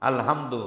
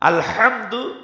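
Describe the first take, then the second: First: The h sound is light and soft. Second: The h sound is harsh and strong. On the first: It means torn cloth. The speaker calls it wrong. "হয়াকার হার মতো" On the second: It means all praise. The speaker calls it right. "এখানে ওই শক্ত হা, বড় হা"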